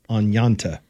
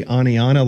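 First: "Anyanta" in three syllables, ending in -ta; alternate pronunciation. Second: Said in the usual way. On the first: Shown as a demonstration. Host wondering how New Yorkers say the name, alternate pronunciation. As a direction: say "Anyanta" as on-YAHN-tah, with a T. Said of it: "or they say". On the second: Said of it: "like we say it here".

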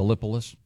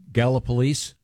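First: Gallipolis stressed on the second syllable, "LIP"; spelling pronunciation. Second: Gallipolis ending in a long "leese"; local pronunciation. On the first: Host reading the town as it looks, spelling pronunciation. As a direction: say Gallipolis as guh-LIP-uh-liss. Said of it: "It looks like". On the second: Host checking a listener's home town, local pronunciation. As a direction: say Gallipolis as GAL-uh-puh-LEESE, questioning. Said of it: "is that the correct pronunciation". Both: Shown as a demonstration.

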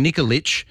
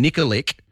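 First: Nikolic ending in a CH sound, "NIK-o-litch"; correct surname pronunciation. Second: Nikolic with a hard K ending, "NIK-o-lik"; mispronounced surname. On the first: Host showing his own surname, Nikolic said as "Nikolitch". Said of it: "as it's supposed to be pronounced". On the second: Host mocking a texter's logic, Nikolic said as "Nikolik". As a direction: end Nikolic on a K sound. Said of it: "you would pronounce my surname". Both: Shown as a demonstration.

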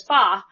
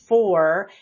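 First: "fa" with the R dropped, an open ah; Boston fa. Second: Said in the usual way. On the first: Shown as a demonstration. Explaining a Boston politician's classic speech, R-less fa. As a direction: say "fa" like an old-school Bostonian. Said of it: "he says that". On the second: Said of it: "he drops the R on".

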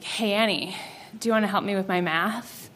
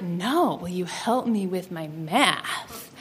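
First: Put-on lower, softer boy's come-on. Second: Low, soft, slow come-on; suggestive boy.

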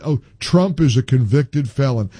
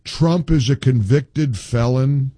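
First: Mock caller, stress on Trump; scornfully quoting a caller he dislikes; mocking quote. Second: Drawn out slowly, leaning on is; host mocking the caller's complaint, slow and sneering; slow mocking repeat. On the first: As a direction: parody the caller's line. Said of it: "that says". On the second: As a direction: drag it out in scorn. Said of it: "when I'm already in a mood".

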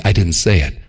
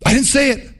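First: Smug low reassurance. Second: High, sing-song I didn't say it; mock innocent protest. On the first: Retold or imitated. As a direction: say it low and self-satisfied. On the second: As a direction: play the sly believer pleased with his loophole.

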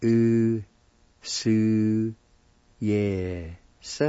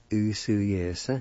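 First: "U Su, yes" as long separate syllables with pauses. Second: Said in the usual way. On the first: Shown as a demonstration. Teacher shows word for picked, syllable by syllable. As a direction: sound out "U Su, yes" slowly, one piece at a time. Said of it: "it's pronounced like this". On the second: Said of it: "like this".

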